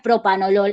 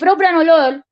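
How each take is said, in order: First: The second syllable is said without an r. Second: The second syllable is said with an r. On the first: The speaker calls it wrong. "No es propanolol" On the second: The speaker calls it right. "es propra"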